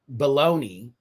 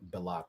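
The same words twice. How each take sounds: First: It is pronounced in the usual American way. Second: It is pronounced in an unusual, non-American way. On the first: The speaker calls it right. "I'm gonna say it the way we've been saying it" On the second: The speaker calls it wrong. "no one says it like that. Not out here in the states"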